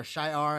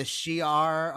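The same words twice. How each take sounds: First: "Shi'ar" said as SHY-ar; SHY-ar pronunciation. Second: "Shi'ar" said as SHEE-ar; SHEE-ar pronunciation. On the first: Host unsure of the name offers "Shi'ar" as SHY-ar. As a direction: say "Shi'ar" with first syllable rhyming with eye. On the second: Host unsure of the name offers "Shi'ar" as SHEE-ar. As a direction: say "Shi'ar" with a long ee in the first syllable. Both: Shown as a demonstration. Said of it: "I can't remember how it's pronounced".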